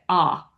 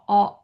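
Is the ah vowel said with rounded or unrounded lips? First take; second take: unrounded; rounded. First: The vowel is open with the jaw dropped. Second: The vowel is rounded and far back. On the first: "we just kind of drop our jaw and say it" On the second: "And it goes very far back in the mouth"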